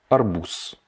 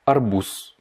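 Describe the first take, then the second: No difference in how they are said.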